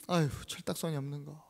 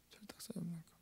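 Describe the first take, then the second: First: Acted reproach. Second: Very soft disapproving whisper; whispered reproach. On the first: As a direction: grumble at her under your breath. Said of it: "막 호되게 뭐라 합니다". (낮게 나무라는 말투) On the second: Acted. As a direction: repeat the scolding in a bare whisper. Disciple's reproach repeated in whisper. (속삭이듯 나무라기)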